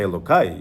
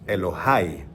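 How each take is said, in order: First: The middle consonant is a k sound. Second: The middle consonant is an h sound. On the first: It is a substitute form that avoids the actual name. The speaker calls it wrong. "you don't say Elokai" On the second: It is the actual divine name, used in prayer. The speaker calls it right. "You say the actual name"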